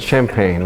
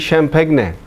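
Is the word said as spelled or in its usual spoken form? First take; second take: usual form; as spelled. First: It is said in its usual spoken form. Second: It is sounded out letter by letter as spelled. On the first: The speaker calls it right. "rather than" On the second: The speaker calls it wrong. "How do you learn not to say"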